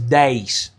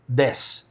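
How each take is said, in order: First: The vowel glides like a diphthong. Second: The vowel is one plain, steady sound. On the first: This is how people from another region say it. "with the diphthong" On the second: This is how people from one region say it. "I'm from Belo Horizonte, so I say des"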